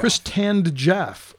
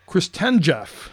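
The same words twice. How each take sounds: First: "Chris Tanned Jeff" drawn out slowly, TAN as in suntan; name read as Chris Tanned. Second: "Chris Ten Jeff" said slowly, middle like the number ten; slow "Chris Ten Jeff", short e in TEN; name read as Chris Ten. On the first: Host tries readings of a player's name, slow "Chris Tanned Jeff". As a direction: stretch "Chris Tanned Jeff", rhyming the middle with hand. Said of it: "I might say Chris Tan". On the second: Host tries another reading of the name, slow "Chris Ten Jeff". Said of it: "I might say". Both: Shown as a demonstration.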